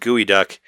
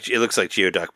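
First: The word begins with a 'gooey' sound. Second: The word begins with a 'gee-oh' sound. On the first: This is how the word is actually said. "but she says gooey duck" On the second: This is how the spelling seems to read. "it looks like geoduck"

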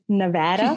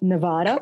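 First: Nevada is said the way locals say it. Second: Nevada is said the way outsiders say it. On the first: The speaker lives there now and fits in. The speaker calls it right. "it's Nevada" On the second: The speaker is not from there. The speaker calls it wrong. "not Nevada. I keep getting corrected"

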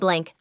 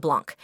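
First: The name rhymes with the word 'tank'. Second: The name has a broader 'ah' vowel, like 'blonk'. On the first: This is the original family name. "his original name from Blanc" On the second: This is the name adopted later. "to Blanc"

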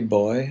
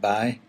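First: The word is said with a standard pronunciation. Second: The word is said with a County Down pronunciation. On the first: "We tend to say boy a lot in County Down" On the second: "only we pronounce it bye"

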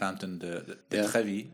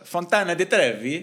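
First: The name is said with a French accent. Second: The name is said with an Italian accent. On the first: The speaker calls it wrong. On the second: The speaker calls it right.

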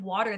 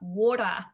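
First: It ends with an R sound, American style. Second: It ends without an R, Australian style. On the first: "here we say R's at the end of our words" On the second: "which is a horrible Australian accent"

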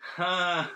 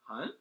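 First: The voice falls at the end. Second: The voice rises at the end.

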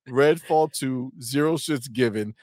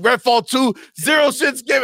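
First: It is read in a plain, ordinary voice. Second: It is said loudly with bold, forceful energy.

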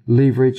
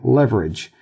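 First: It is said with a British pronunciation. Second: It is said with an American pronunciation. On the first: The speaker calls it right. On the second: The speaker calls it wrong.

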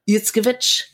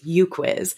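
First: The surname is said with its original pronunciation. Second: The surname is said with an Americanized pronunciation. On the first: This is how the name is meant to sound. "It's supposed to be like" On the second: This is how Americans usually say it. "The American pronunciation is"

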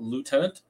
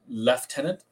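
First: The word starts with a 'loo' sound. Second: The word starts with a 'lef' sound. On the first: This form sounds like a toilet attendant. The speaker calls it wrong. "and not lieutenant" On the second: This is the form used in Canada. The speaker calls it right. "why I say lieutenant"

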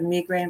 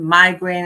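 First: It is said in a non-American accent. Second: It is said in an American accent. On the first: "instead of" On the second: "I have to assume an American"

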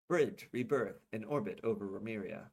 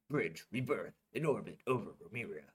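First: It is said in the speaker's ordinary voice. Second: It is said in a put-on character voice. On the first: The speaker calls it wrong. "I forgot to do the voice" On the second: The speaker calls it right. "That makes it sound so much more like I'm a 10-year-old kid"

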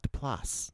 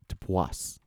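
First: The name is said with an L sound. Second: The name is said without an L sound. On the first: The speaker calls it wrong. "Not Duplass. There's no L" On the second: The speaker calls it right. "No. Duplass"

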